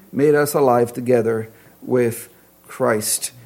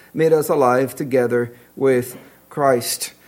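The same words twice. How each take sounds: No difference in how they are said.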